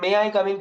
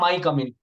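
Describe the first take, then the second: First: "May" and "I" are said as separate words. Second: "May I" is merged into one syllable. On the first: The speaker calls it right. "मे आई कम इन की जगह" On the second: The speaker calls it wrong. "मे आई को माए बना लिया"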